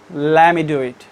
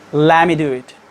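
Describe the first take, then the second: First: The t is dropped, let me sounds like lemmy. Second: The t is dropped, let me sounds like lemmy.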